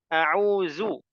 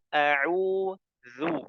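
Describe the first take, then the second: First: The middle consonant is a z sound. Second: The middle consonant is a light th sound. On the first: The speaker calls it wrong. "jadi zai" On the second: The speaker calls it right. "yang betul a'udzu"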